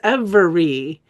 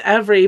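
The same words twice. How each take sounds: First: Every syllable is pronounced slowly and distinctly. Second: The word is said quickly with reduced syllables. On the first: The speaker calls it wrong. "try not to over enunciate, ... I don't want to say the word is every" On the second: The speaker calls it right. "Instead, I want to say the word's every"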